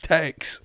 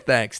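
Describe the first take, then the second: First: The word begins with a hard 't' sound. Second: The word begins with a soft 'th' sound. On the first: This imitates how people on the show say it. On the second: This is the usual way to say it. "They don't say thanks"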